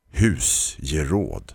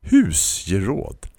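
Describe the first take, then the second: First: "Husgeråd" said very slowly with a falling tune; savoring the word. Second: "Husgeråd?" said slowly with a questioning rise; slow, incredulous "Husgeråd?" rising at the end; doubtful question. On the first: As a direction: draw out "Husgeråd" lovingly, falling at the end. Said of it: "sa hon". ("Husgeråd" mycket långsamt, fallande ton) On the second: Vantrogen upprepning. ("Husgeråd?" långsamt och frågande stigande) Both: A narrator's reading.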